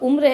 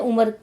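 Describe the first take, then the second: First: The m and r are joined without a vowel. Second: A short vowel separates the m and r. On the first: This is the standard, pure form of the word. "सही शब्द आपका उम्र है" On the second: This is the village dialect form of the word. "गांव की बोली में उसे उमर"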